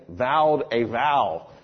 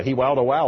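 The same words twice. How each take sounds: First: Said in the usual way. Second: "wowed a wow" with W sounds replacing each V; German V as W. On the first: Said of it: "we finally figured out she meant". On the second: Retold or imitated. Teller repeating the scholar's slip, "wowed a wow" with W for V. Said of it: "she meant vowed a vow".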